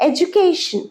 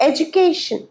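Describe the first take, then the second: The two takes are said the same way.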